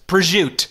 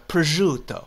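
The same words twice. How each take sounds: First: It is said in a New Jersey accent. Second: It is said in an Italian-style accent. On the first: "you go to Jersey and it's just" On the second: "it's closer to like a"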